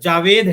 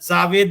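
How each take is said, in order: First: The name begins with a j sound. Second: The name begins with a z sound. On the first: The speaker calls it right. "वो ज है" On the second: The speaker calls it wrong. "वो भी गलत हो जाएगा"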